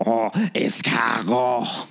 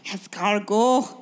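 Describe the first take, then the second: First: Slow, drawn-out fake French; French chef. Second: Slow fake French, rising tune; French chef. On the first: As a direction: savour it like a hammy French chef. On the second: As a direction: echo it slowly like a French chef. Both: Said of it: "this episode's accent".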